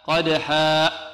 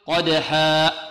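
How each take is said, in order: No difference in how they are said.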